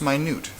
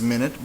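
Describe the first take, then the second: First: "minute" said my-NEWT; "minute" meaning very small; minute as in tiny. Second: "minute" said MIN-it; "minute" as sixty seconds; minute as in time. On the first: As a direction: stress the second syllable of "minute". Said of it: "could be pronounced minute". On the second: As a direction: stress the first syllable of "minute". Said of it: "probably is minute". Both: Shown as a demonstration.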